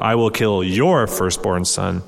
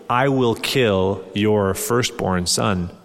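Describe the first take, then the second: First: Your leaned on, the rest of the line slower; stress on your. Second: Said in the usual way. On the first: Shown as a demonstration. Preacher correcting his reading for the congregation, stress on your. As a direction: hit the word your, as in your own son. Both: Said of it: "The emphasis should ... be y-, your".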